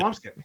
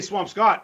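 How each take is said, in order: First: The last syllable is reduced to 'skit'. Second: The last syllable is a full 'scot'. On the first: This is how a local says the name. The speaker calls it right. "like a person from the North Shore" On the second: This is how an outsider says the name. The speaker calls it wrong. "you don't say Swampscott"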